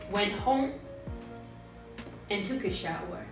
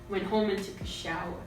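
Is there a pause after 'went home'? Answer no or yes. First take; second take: yes; no. First: There is a clear pause after home. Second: It flows on without a pause after home. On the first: "if I put in a pause here, this is what it would sound like" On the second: "I'm not really making a break"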